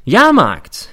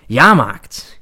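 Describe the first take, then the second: First: Loud, much higher fairground cry; second Jahrmarkt bigger and higher; barker shout. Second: Loud fairground cry; barker call. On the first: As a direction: shout it high to the crowd. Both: Acted. Barker call in inner monologue.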